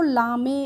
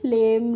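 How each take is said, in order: First: It has an 'ah' vowel and a sounded final e. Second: It has an 'ay' vowel and a silent final e. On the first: The speaker calls it wrong. "इस तरीके से नहीं पढ़ेंगे" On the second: The speaker calls it right. "कैसे पढ़ेंगे? लेम"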